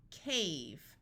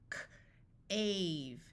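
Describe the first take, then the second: First: Said in the usual way. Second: Crisp K, pause, then "ave"; sounded out. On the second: Shown as a demonstration. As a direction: break "K, ave" into separate sounds. Phonics teacher sounds out, then blends.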